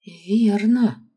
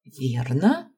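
First: «Верно» higher and louder, falling at the end; through gritted teeth. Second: «Верно?» hushed, rising at the end; questioning. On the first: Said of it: "процедила сквозь зубы Аманда". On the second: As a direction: ask «Верно?» with a rising tune, seeking confirmation. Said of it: "понизив голос до едва различимого шёпота". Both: A narrator's reading.

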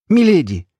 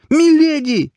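First: High, loud cry of alarm; startled cry, pitched well up; exclaiming. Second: Very high, loud anguished wail; desperate, grief-stricken scream of her name; pained cry. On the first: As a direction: call out to her in shock. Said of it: "воскликнул Альт". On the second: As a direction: cry out in heartbreak at the top of the voice. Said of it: "Боль в голосе сталкера резанула по сердцу". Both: A narrator's reading.

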